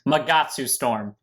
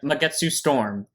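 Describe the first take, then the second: First: The name is said in a careful, standard pronunciation. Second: The name is said in a casual, altered pronunciation.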